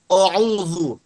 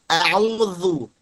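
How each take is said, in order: First: The first vowel is thick, close to o. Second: The first vowel is a thin, open a. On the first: The speaker calls it wrong. "Jangan a'udzu, jangan o" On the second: The speaker calls it right. "tapi a. Tipis a"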